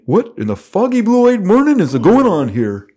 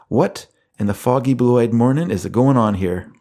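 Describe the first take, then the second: First: It is said in a put-on cartoon character voice. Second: It is said in the speaker's normal voice.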